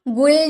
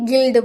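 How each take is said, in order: First: The vowel is an 'oo' sound. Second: The vowel is an 'i' sound. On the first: The speaker calls it wrong. "गुल्ड नहीं बोलेंगे" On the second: The speaker calls it right. "गिल्ड बोलेंगे"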